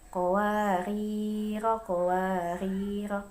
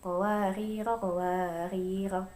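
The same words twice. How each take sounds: First: The first word ends long, the second short. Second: Both words end with a short vowel. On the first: "Yang pertama panjang pendek" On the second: "Yang kedua pendek-pendek"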